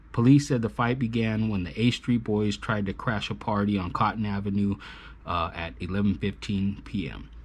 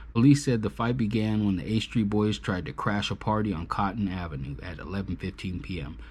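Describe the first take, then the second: No difference in how they are said.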